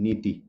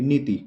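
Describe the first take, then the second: First: नीति with a drawn-out नी and a clipped ती; teacher demonstrating नीति, long नी and short ती. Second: Teacher demonstrating नीति, long नी and short ती. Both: Shown as a demonstration. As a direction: stretch the नी of नीति, stop dead on ती. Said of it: "नी लंबा खिंच रहा हल्का सा और ती एकदम वहीं स्टॉप".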